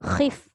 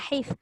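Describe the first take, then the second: First: It begins with a harsh, raspy throat sound. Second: It begins with a soft, breathy h sound. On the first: The speaker calls it right. "Khif. Kho" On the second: The speaker calls it wrong. "Jangan hif"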